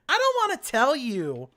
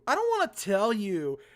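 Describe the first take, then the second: First: It is said in a very whiny tone. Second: It is read in a plain, neutral tone.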